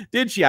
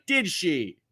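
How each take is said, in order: First: Higher and louder, delighted disbelief; amused surprise. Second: Said in the usual way. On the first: Real, not acted. Host teasing the chat after a laugh, amused surprise. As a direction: laugh it out as a teasing double take.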